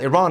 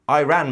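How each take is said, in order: First: It is said as one joined word. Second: It is said as two separate words. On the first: The speaker calls it right. "It's not Iran anymore" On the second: The speaker calls it wrong. "You can't just separate the two words, say I, and then ran. I ran makes no sense"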